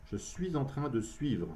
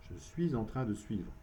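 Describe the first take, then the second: No difference in how they are said.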